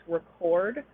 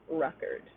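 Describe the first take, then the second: First: "record" as a verb, re-CORD; "record" with reduced first syllable, stressed second. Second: "record" as a noun, REC-ord; "record" with stressed first syllable, reduced second. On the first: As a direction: put the weight on the CORD of "record". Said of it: "comes before a stressed syllable". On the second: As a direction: put the weight on the REC of "record". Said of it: "the noun". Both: Shown as a demonstration.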